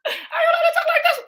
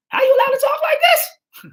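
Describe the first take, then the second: First: High, squealing through laughter; giggling the same question; laughing. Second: A hammed-up outraged cry; mock outraged shout. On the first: Real, not acted. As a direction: laugh the line out in disbelief. Repeats the line laughing. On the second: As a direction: cry out as if scandalised. Mock outrage at quoted words.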